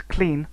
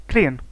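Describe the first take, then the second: First: Said in the usual way. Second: CLEAN broken into two vowels, 'clee-un'. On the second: Shown as a demonstration. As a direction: split the vowel of 'clean', Dublin style. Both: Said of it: "includes closed vowel breaking".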